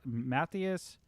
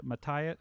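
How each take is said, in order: First: Matthias said MATH-ee-us; corrected attempt. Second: Matthias said muh-TIE-us, hard T; attempted pronunciation. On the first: Streamer retrying a viewer's name, Matthias as MATH-ee-us. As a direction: say Matthias with TH and an EE after it. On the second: Streamer attempting a viewer's name, Matthias as muh-TIE-us. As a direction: say Matthias with a T and long I. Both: Shown as a demonstration. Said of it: "I can't pronounce your name".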